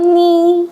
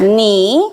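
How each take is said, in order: First: The pitch stays level and flat. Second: The pitch dips down and swings back up. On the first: "nada satu nih datar" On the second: "nada tiga di ayun"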